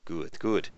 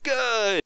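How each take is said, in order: First: Said in the usual way. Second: A sudden much higher, louder Good!; delighted. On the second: Acted. Hernando thrilled the runner still has the crew's numbers, delighted. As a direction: burst out with delight.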